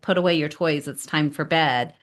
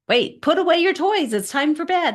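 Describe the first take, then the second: First: It is said calmly at normal volume. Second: It is said louder, with rising frustration.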